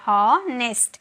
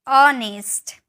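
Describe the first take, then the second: First: The word begins with an audible h sound. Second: The word begins with a vowel, no h. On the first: The speaker calls it wrong. "Guys ये गलत है" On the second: The speaker calls it right. "यहाँ पे जो एच है ना, ये बोला नहीं जाता है"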